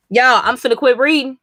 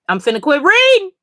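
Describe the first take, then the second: First: Said in the usual way. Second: Higher, louder, dramatic exasperation; exaggerated disbelief, pitched up high; exasperated. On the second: Real, not acted. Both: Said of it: "I'm really about to quit reading".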